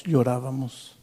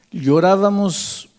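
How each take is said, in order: First: Said in the usual way. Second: Llorábamos slow, high and loud, leaning on each syllable; stressed repeat. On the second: Shown as a demonstration. Scene: the friend insists to the father that they wept, emphatic. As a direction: hammer Llorábamos home slowly.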